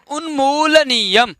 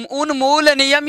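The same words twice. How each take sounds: First: उन्मूलनीयम stretched out, long ऊ and ई; careful pronunciation. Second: Said in the usual way. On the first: Shown as a demonstration. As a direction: model उन्मूलनीयम slowly, syllable by syllable. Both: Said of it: "एक बार उच्चारण कर लेंगे".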